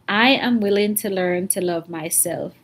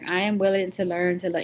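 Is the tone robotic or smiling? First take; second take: smiling; robotic. First: It is said warmly with a smile. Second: It is said flatly like a robot.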